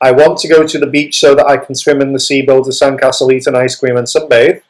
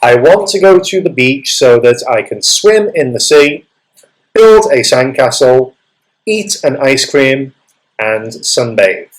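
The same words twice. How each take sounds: First: The list items run together without pauses. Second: There is a pause after each list item.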